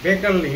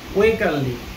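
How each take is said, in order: First: The name begins with a B sound. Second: The name begins with a W sound. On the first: It follows the Hungarian pronunciation. The speaker calls it right. "Actually উচ্চারণটা হচ্ছে" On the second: It follows the spelling. The speaker calls it wrong. "According to spelling এটা উচ্চারণটা আসে"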